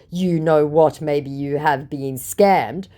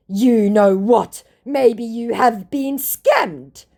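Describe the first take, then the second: First: Said in the usual way. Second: Slow, high, loud mock retort; hammed-up accusation; indignant scammer. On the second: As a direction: draw it out as an affronted scammer.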